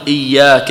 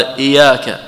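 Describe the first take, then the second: First: إياك with a held, doubled y, "iy-yaaka". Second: إياك with a short single y, "i-yaaka"; don't double the y in إياك; light single ya. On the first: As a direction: lengthen the y in إياك as a geminate. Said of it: "إياك بتشديد الياء". (إياك بتشديد الياء) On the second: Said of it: "بالتخفيف الياء". (إياك بتخفيف الياء) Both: Shown as a demonstration.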